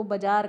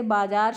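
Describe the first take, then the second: First: बाजार with a short first vowel; shortened बाजार. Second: बाजार with a long first aa; both vowels long in बाजार; standard बाजार. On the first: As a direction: say बाजार as "ba-jaar". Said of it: "बाजार कहा जाता है". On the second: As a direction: say बाजार as "baa-jaar". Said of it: "मात्रा का ध्यान ही नहीं देते". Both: Shown as a demonstration.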